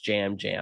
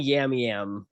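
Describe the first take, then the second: First: Each part begins with a J sound. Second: Each part begins with a Y sound. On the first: This is the name's actual pronunciation. The speaker calls it right. "found out it was jam jam" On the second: This is how they had been saying it. The speaker calls it wrong. "were saying yam yam"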